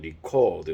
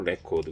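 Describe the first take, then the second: First: The stress is on the second syllable. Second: The stress is on the first syllable. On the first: It is the verb meaning to record. "기록하다라고 할 때는" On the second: It is the noun meaning a record. "명전동을 그래서 그 레코드 그러면은 기록 명사로"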